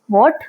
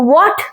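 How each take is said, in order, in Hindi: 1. यह शब्द जिज्ञासु लहजे में शांति से पूछा गया है। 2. यह शब्द ज़ोर से और कठोरता से चिल्लाकर बोला गया है। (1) "We can say" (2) "Instead of yelling"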